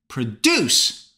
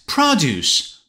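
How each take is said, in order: First: The stress is on the second syllable. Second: The stress is on the first syllable. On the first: It is the verb meaning to make something. "Produce on the second syllable" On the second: It is the noun meaning vegetables and fruit. "First syllable"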